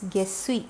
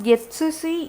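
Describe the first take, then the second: First: The middle is a doubled 'ss' sound. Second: The middle is a full 'tsu' syllable. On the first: The speaker calls it right. "it's Gessi" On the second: The speaker calls it wrong. "not Getsusi"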